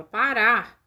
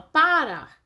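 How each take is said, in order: First: Parar stressed correctly as pa-RAR; stress on the last syllable. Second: Parar mis-stressed as PA-rar; stress on the first syllable. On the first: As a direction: lean on the final RAR of parar. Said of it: "a gente fala parar". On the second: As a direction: lean on PA in parar, let the ending fall. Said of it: "A gente não fala parar". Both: Shown as a demonstration.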